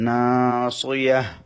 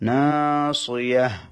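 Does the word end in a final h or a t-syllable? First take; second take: final h; final h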